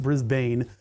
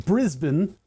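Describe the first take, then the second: First: "Brisbane" with a full last syllable, BRIZ-BANE; "Brisbane" with a long A in the ending; mispronunciation. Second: "Brisbane" with a reduced last syllable, BRIZ-bun; "Brisbane" rhyming its end with "cousin"; local pronunciation. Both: Shown as a demonstration. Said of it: "not Brisbane".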